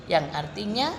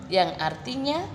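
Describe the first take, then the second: The two takes are said the same way.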